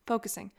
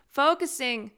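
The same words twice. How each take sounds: First: Said in the usual way. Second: FOCUSING pitched up with firm emphasis; higher, emphatic FOCUSING; emphatic self-command. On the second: Real, not acted. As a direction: order yourself back on track with a higher FOCUSING. Repeats it to force herself back.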